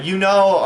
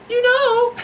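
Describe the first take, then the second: First: Said in the usual way. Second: Very high falsetto girlfriend impression; mock-feminine falsetto; girl voice. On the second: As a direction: put on a squeaky girl voice. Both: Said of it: "the girl voice".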